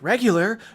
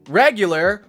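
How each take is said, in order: First: The words are said more quietly. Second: The words are said more loudly. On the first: The speaker calls it right. "He's like a little bit quieter" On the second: The speaker calls it wrong. "Sorry, sorry"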